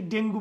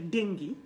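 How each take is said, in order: First: "ডেঙ্গু" as DENG-gu; oo ending on "ডেঙ্গু"; wrong pronunciation. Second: "ডেঙ্গি" as DENG-gi; correct pronunciation. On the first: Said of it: "ডেঙ্গু বলবো না". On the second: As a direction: ee ending on "ডেঙ্গি". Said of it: "এটা হবে উচ্চারণটা ডেঙ্গি". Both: Shown as a demonstration.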